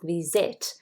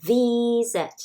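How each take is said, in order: First: The stress is on the second syllable. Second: The stress is on the first syllable. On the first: The speaker calls it wrong. "not visit" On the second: The speaker calls it right. "the stressed syllable is the, not sit. You say visit"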